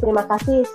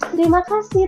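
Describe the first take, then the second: First: It is said quickly and flatly, without energy. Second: It is said with emphasis and lively energy. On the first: The praise is given in passing. The speaker calls it wrong. "kurang greget gitu" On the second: The praise is meant sincerely. The speaker calls it right. "Jadi ditekankan"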